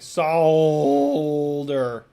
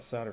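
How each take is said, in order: First: The word is said with a British pronunciation. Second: The word is said with an American pronunciation. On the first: The speaker calls it right. "Sorry, solder" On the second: The speaker calls it wrong. "pronouncing it the American way"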